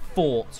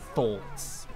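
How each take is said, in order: First: The word begins with an F sound. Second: The word begins with a TH sound. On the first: This is how the speaker used to say it. "one of my English accent traits is putting an F instead of a TH" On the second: This is how the speaker says it now. "rather than thoughts"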